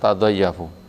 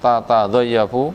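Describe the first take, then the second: First: It begins with one short single t sound. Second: It begins with two separate ta syllables. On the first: This is the light, shortened reading. "Bacaan ringan" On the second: This is the original full reading. "ini bacaan asli"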